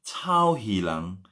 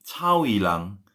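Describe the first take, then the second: First: Drawn-out "Cao Hilang"; slow spelled demo. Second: Said in the usual way. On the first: Shown as a demonstration. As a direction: say "Cao Hilang" slowly, each syllable apart. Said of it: "C H A U". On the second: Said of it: "Cao Hilang repeated".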